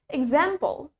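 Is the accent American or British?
American. It is said in an American accent. "While in American English, we pronounce it as example"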